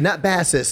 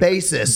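First: The first syllable sounds like the fish 'bass'. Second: The first syllable sounds like the instrument 'bass'. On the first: It names someone who fishes. The speaker calls it wrong. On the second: It names a bass player. The speaker calls it right.

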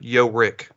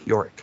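First: The name is split into two separate parts. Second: The name is said smoothly as one word. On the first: "you could split it up" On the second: "I'll put the two together"

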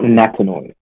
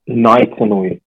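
First: The name begins with the syllable 'Na'. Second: The name begins with the syllable 'Nai'. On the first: The speaker calls it wrong. "not Natanui" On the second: The speaker calls it right. "it's Nick Naitanui"

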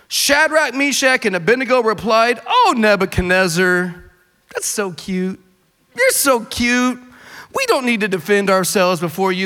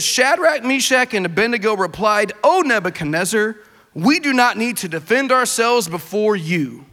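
First: It is read in a sarcastic, mocking tone. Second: It is read in a plain, neutral tone.

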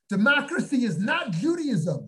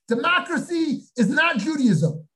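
First: It is said in a normal, quiet voice. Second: It is said in a raised, excited voice.

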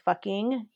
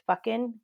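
First: The word ends with a full 'ing' sound. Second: The word ends with a clipped 'in' sound. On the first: "instead of saying fucking" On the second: "it's always the I-N instead of I-N-G"

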